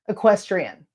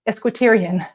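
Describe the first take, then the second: First: The word begins with 'ek', sounds in order. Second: The word begins with 'esk', sounds scrambled. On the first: The speaker calls it right. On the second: The speaker calls it wrong.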